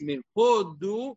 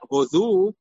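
First: The stress is on the first syllable. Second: The stress is on the second syllable. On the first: It means India. The speaker calls it right. "it is mile'el, which means the emphasis is on the first part of the word" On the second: It means give thanks. The speaker calls it wrong. "it's not hodu"

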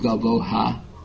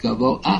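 First: An h sound comes before the final vowel. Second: No h sound comes before the final vowel. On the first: The speaker calls it wrong. "You don't pronounce it govo'ha" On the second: The speaker calls it right. "It's govo'a"

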